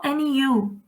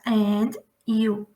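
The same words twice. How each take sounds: First: The two words run together without a break. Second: The two words are separated by a pause. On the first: "Juntar uma pronúncia na outra" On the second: "Eu não faço and, you"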